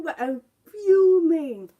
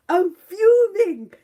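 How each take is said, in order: First: Said in the usual way. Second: Loud, slow, seething; real fury. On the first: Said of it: "I'm smiling". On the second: Real, not acted. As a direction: drag "fuming" out in real anger.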